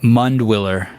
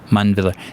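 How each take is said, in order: First: The letter W is pronounced as a W sound. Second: The letter W is pronounced as a V sound. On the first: The speaker calls it wrong. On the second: The speaker calls it right.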